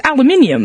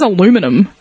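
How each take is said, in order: First: Aluminium as "al-yoo-MIN-ee-um"; aluminium with the extra "ee" before "um"; British and Australian pronunciation. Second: Aluminum as "a-LOO-mi-num"; aluminum in four syllables, American way; American pronunciation. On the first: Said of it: "Like, it's aluminium". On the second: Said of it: "where, like, Americans will". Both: Shown as a demonstration.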